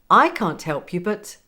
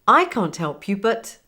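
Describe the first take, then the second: No difference in how they are said.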